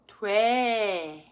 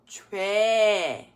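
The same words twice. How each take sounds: First: Brief consonant blends in; the vowel stays steady. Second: Brief consonant blends in; the vowel stays steady.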